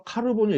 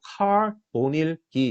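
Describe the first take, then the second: First: 카르보닐 with 르 as its own syllable; Korean-style pronunciation. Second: 카보닐기 with no 르 syllable; English-style pronunciation. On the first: Lecturer showing students the form not used, 카르보닐 with a full 르. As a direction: sound out the extra 르 in 카르보닐. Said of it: "이렇게 발음하지 않고". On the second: Lecturer showing students the English-style form, 카보닐기 without 르. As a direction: go straight from 카 to 보 in 카보닐기. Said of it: "이렇게 발음을 해요". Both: Shown as a demonstration.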